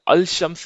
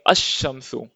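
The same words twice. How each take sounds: First: अल शम्स with the L pronounced before sh; wrong reading, L sounded. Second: अश-शम्सु with doubled sh and no L; silent L. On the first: Teacher shows what not to read, अल शम्स with audible L. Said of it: "नहीं पढ़ेंगे". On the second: Teacher shows the sun-letter rule, अश-शम्सु with L silent. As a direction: drop the L, hold the sh in अश-शम्सु. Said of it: "हम बोलेंगे". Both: Shown as a demonstration.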